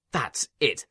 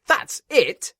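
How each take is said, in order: First: Said in the usual way. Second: That's it jumps much higher and louder; spluttering. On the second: A narrator's reading. Inspector outraged at the controller, high loud splutter. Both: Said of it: "spluttered the inspector".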